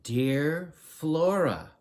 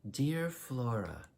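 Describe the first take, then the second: First: It is said louder and more insistently. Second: It is said at normal volume, not insistent.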